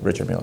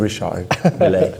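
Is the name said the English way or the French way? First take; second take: English; French. First: The name is said with an English pronunciation. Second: The name is said with a French pronunciation. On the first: The speaker's own casual American way. The speaker calls it wrong. "as I like to call it" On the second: The proper original pronunciation. The speaker calls it right. "I know it's supposed to be"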